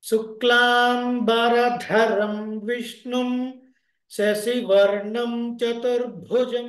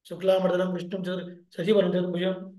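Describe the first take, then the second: First: Every syllable is pronounced fully and distinctly. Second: Syllables are run together and some are dropped. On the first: The speaker calls it right. "all these are important when you learn and when you pronounce it" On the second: The speaker calls it wrong. "ಶುಕ್ಲಾಮರ್ದನಲ್ಲೇ ಹೋಗುತ್ತೆ ಅದು"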